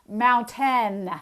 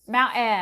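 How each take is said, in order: First: The middle T is fully and crisply released. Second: The middle T is a glottal stop. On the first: "a hypercorrect version of this" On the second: "the glottalization of T"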